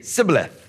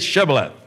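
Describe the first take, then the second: First: The word begins with an 's' sound. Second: The word begins with a 'sh' sound. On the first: The speaker is from Ephraim. The speaker calls it wrong. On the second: The speaker is not from Ephraim. The speaker calls it right.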